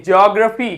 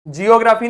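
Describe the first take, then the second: First: जियोग्राफी with jee and o run into one jo sound; जियोग्राफी with the glide, the right take; correct way. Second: जियोग्राफी with separate jee-o syllables; जियोग्राफी spelled out as jee-o, marked wrong. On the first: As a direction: say जियोग्राफी as jog-raa-fee. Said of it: "जियोग्राफी नहीं, जियोग्राफी". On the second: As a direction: say जियोग्राफी as jee-o-graa-fee, the wrong take. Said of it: "जियोग्राफी नहीं". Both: Shown as a demonstration.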